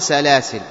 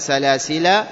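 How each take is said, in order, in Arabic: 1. تنتهي الكلمة بدون مد طويل في الآخر. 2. تنتهي الكلمة بصوت المد الطويل 'aa'. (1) "الوجه الثاني بإسقاط الألف" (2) "الوجه الأول بإثبات الألف"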